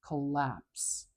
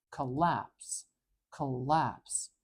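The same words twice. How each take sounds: First: "Collapse" said slowly, stress on the second syllable lapse; slow model word. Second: "Collapse" with weight on lapse, weak schwa first; stress on lapse. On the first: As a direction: say "Collapse" clearly with weak first vowel. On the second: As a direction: lean on the second syllable of "Collapse". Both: Shown as a demonstration. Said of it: "where the stress goes".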